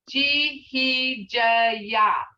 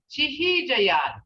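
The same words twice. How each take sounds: First: Chihijayat stretched very slowly, syllable by syllable; broken-down syllables. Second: Chihijayat said slowly with a falling end; slow native word. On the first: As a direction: break Chihijayat into its sounds. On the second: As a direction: sound out Chihijayat carefully. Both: Shown as a demonstration. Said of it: "see how it's broke down to those sounds".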